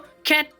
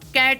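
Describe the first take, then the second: First: The first consonant falls between k and kh. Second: The first consonant is a plain local k. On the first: The speaker calls it right. "दोनों के बीच में क क क" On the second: The speaker calls it wrong. "हम यहाँ पे कैट बोलते हैं"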